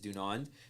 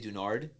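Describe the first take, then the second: First: The last consonant sound is an N. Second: The last consonant sound is an R. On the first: The speaker calls it right. "pronunciation is Dunand" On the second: The speaker calls it wrong. "change the last N to an R"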